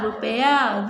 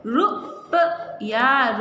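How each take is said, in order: First: Said in the usual way. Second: रुपया stretched very slowly; teacher stretching रुपया; slow sounding out. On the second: Shown as a demonstration. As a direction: draw out रुपया for the class. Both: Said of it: "हो जाएगा रु".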